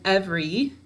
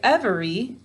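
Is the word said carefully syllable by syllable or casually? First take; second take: casually; carefully. First: It is said casually, with a syllable reduced. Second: Each syllable is pronounced carefully and fully. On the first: This is how the word is said in everyday speech. "every when we're speaking" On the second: This is how the word is said for spelling it. "we say every to spell it"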